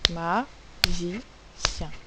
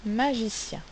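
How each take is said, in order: First: "Magicien" split into ma, gi, cien with clear pauses; very slow, separated syllables in "Magicien". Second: Said in the usual way. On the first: Shown as a demonstration. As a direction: break "Magicien" into three beats for pupils. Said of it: "trois syllabes". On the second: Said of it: "le mot c'est magicien".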